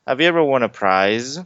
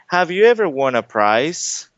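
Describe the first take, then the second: First: The last word ends with a buzzing Z sound. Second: The last word ends with a hissing S sound. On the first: It means something that was won. The speaker calls it right. "They would understand what you're talking about" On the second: It sounds like the word for a cost. The speaker calls it wrong. "people are going to think of this word"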